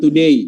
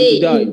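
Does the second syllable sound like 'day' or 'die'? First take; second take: day; die. First: The second syllable sounds like 'day'. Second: The second syllable sounds like 'die'. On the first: The speaker calls it right. "jangan today" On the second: The speaker calls it wrong. "jangan to die"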